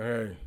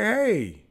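First: Dry. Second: A bright, high hey; cheerful hello. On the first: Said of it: "All dry". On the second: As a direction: call out a friendly hey. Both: Retold or imitated.

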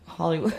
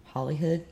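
First: Said in the usual way. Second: "Hollywood" said with an h, as HOLLY-HOOD; mispronounced as Hollyhood. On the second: Real, not acted. Host fumbling her guess, "Hollywood" said as Hollyhood. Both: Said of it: "No, Hollywood".

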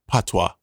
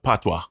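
First: "patois" as Americans around him say it, PAH-twah; American-style patois. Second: "patois" said the Jamaican way, short PA-twa; Jamaican-style patois. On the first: Husband explains Americans' word to listeners, American-style "patois". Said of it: "the American people in my life, we call it". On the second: Husband explains the word used down in Jamaica, Jamaican-style "patois". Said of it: "Down in Jamaica, we call it". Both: Shown as a demonstration.

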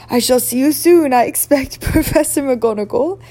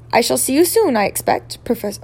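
First: Lightly voiced headmaster, loud and lifted; Dumbledore. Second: Lightly voiced professor, wrong character; mistaken McGonagall voice. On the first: A narrator's reading. Headmaster bids the professor farewell, lightly characterised. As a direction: redo the farewell in the headmaster's voice, held high. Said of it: "said Dumbledore, nodding to her". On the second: Character bids the professor farewell, in the wrong voice. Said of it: "oh, that was not Professor McGonagall".

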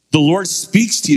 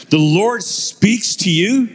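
First: Higher-pitched English professor's query; put-on English accent, voice lifted. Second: Put-on slow, high, incredulous English accent; mock English accent, stretched and rising at the end. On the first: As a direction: imitate an English professor, pointedly. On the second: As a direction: draw it out like an astonished English professor. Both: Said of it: "in his English accent".

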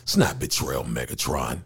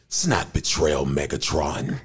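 First: Low, softer and understated; underplay the line, pitched down, as if just talking; regular-voice take. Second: Low, acted robot line; put-on robot voice. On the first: Shown as a demonstration. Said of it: "I just used my regular voice". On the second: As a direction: drop the pitch and play it to a villain. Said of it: "I'm doing this voice".

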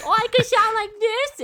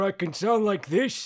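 First: Much higher, louder mock baby voice. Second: Lightly voiced old man showing off. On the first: Retelling a movie soul switching to a silly baby voice. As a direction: squeak it out like a baby, hammed up. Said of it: "has a baby voice". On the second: Retelling a movie soul showing off an old man voice. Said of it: "turns into an old man voice".

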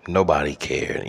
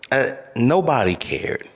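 First: Said in the usual way. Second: NOBODY jumps high then falls hard; "nobody" hit high and dragged down, then "cared" dropped; bitter emphasis. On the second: Real, not acted. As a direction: stress the word nobody in disbelief. Repeats the complaint twice.

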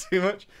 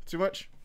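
First: Too much? squeaked high through a laugh. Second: Said in the usual way. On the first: Real, not acted.

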